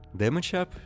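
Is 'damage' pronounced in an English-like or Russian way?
English-like. Damage is said closer to English, like 'damidge'.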